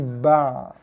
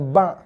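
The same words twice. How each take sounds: First: The ain is said soft with a slight trailing sound. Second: The ain is said hard, like a glottal stop. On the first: The speaker calls it right. "tapi ba. ... dia ada bunyi berekor sikit" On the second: The speaker calls it wrong. "Bukannya ba"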